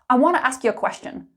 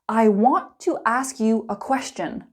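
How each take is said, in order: First: It is spoken fast and angrily. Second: It is spoken slowly and clearly. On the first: "Let's speed it up" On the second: "slow and clear"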